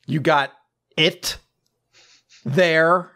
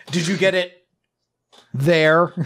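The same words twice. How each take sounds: First: High loud put-on voice with long pauses; mock captain, drawn out. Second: High, loud put-on voice; mock captain. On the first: Captain asking again, high loud voice with long pauses. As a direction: stretch it out with dramatic pauses. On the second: Captain asking Soul about the thing, high loud put-on voice. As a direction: ask it with exaggerated secrecy. Mocking the captain's vague question.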